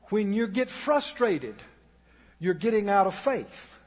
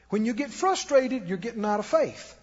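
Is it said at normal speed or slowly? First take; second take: slowly; normal. First: It is said very slowly. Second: It is said at a normal pace.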